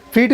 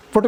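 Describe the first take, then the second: First: फीट with a long ee, like English feet. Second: फुट with a short u, like English foot. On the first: Teacher showing the class the word फीट, said as feet. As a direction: say फीट as feet, stretching the vowel. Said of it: "फुट भी कहते हैं". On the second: Teacher showing the class the word फुट, said as foot. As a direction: say फुट as foot, not feet. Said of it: "फीट भी कहते हैं". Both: Shown as a demonstration.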